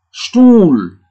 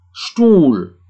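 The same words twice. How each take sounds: First: Stuhl with a long U, high and loud. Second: Stuhl again with a long U; long U repeated. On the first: Teacher demonstrates the silent H to class. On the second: Teacher repeats the long-U word. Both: Shown as a demonstration. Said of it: "Jadi U-nya panjang".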